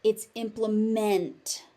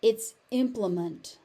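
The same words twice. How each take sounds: First: "implement" with a full "-ment" ending; verb ending. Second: "implement" with a reduced "-munt" ending; noun ending. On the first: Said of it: "As a verb". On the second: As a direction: end "implement" on a weak "munt". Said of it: "So as a noun". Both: Shown as a demonstration.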